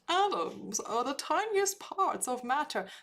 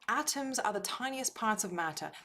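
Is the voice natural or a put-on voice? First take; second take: put-on; natural. First: It is said in a put-on voice. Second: It is said in a natural voice.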